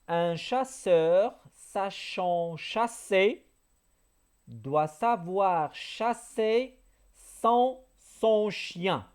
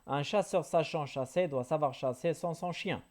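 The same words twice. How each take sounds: First: It is said at a normal speed. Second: It is said quickly.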